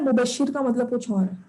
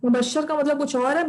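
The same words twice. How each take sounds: First: "मुबशिर" with a short I in the last syllable; correct pronunciation. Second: "मुबशर" with an A in the last syllable; common mispronunciation. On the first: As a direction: say "मुबशिर", ending in -shir rather than -shar. ("मुबशिर" के आख़िर में "शिर", ज़ेर के साथ) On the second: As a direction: say "मुबशर", ending in -shar rather than -shir. ("मुबशर" के आख़िर में "शर", ज़बर के साथ) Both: Shown as a demonstration. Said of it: "मुबशिर को भी अक्सर लोग मुबशर बोल रहे होते हैं".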